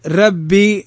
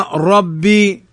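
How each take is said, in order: First: ربي with a light, thin r, like "rebbi"; wrong thin ra. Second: ربي with a full, thick r, like "robbi"; correct heavy ra. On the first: Teacher shows how not to say ربي, thin ra. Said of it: "لا تقل ربي". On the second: Teacher corrects students' ربي, heavy ra. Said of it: "إنما ربي". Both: Shown as a demonstration.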